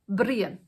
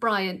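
First: The name is said with an Irish pronunciation. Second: The name is said with an English pronunciation. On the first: "it's just pronounced differently" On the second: "the Irish for the name Brian"

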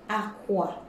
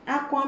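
First: It carries the tone pattern of 'bed'. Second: It carries the tone pattern of 'cry'. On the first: The word means a bed. "Aqua means a bed" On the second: The word means to cry. "Aqua means to cry"

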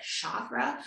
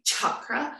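First: The first sound is soft, like sh. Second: The first sound is hard, like ch. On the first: The speaker calls it wrong. "a lot of people pronounce it chakra" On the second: The speaker calls it right. "it's actually a harder, like a chicken"

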